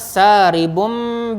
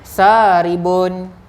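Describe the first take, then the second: First: The word ends with an m sound. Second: The word ends with an n sound. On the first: This is the form read before the letter ba. "Oleh kerana saribum bi, jumpa dengan ba" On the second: This is the original form before the rule applies. "asalnya macam ni"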